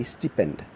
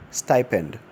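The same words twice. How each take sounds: First: Stipend said STEE-pend; wrong pronunciation. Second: Stipend said STY-pend; correct pronunciation. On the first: Teacher quoting the error. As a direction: quote stipend with an ee sound. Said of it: "Stipend is wrong". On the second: Teacher giving the right form. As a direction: model Stipend with the long STY. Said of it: "The correct rendition of that word is". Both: Shown as a demonstration.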